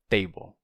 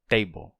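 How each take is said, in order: No difference in how they are said.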